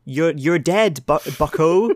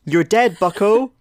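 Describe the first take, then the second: First: Wolverine voice. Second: High, loud mock growl; hammed-up gruff hero line; Wolverine voice. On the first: Pretend. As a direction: drag it out, hammy tough guy. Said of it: "just one more for safety". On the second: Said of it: "Give me your Wolverine voice".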